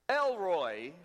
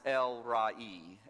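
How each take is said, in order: First: The name ends with a single 'roy' sound. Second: The name ends with separate 'ra' and 'ee' sounds. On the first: The speaker calls it wrong. "Elroy might be the way we might mispronounce it" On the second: The speaker calls it right. "it's actually to be pronounced El-Ra-E"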